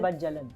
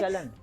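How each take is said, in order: First: The middle consonant is a 'j' sound. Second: The middle consonant is a 'ch' sound. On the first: The speaker calls it wrong. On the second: The speaker calls it right.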